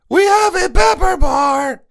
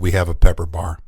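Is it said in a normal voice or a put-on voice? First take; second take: put-on; normal. First: It is said in a put-on character voice. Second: It is said in his normal voice.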